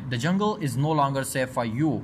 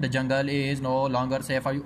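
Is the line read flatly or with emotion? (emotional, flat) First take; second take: emotional; flat. First: It is spoken with emotion in the voice. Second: It is read flatly, like plain reading. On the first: The speaker calls it right. "Tone के अंदाज में के हमारा यहाँ पर emotion क्या होना चाहिए" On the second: The speaker calls it wrong. "Reading के अंदाज में नहीं ... ऐसे नहीं"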